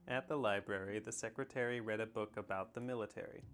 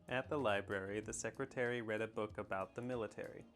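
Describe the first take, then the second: Both takes have the same delivery.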